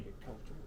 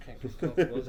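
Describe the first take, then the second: First: Can't get comfortable muttered under the breath, soft and unvoiced; muttered to self. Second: Said in the usual way. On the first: Real, not acted. Shifting in his seat, he mutters Can't get comfortable to himself. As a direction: grumble Can't get comfortable almost silently. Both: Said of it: "I'm over here like this".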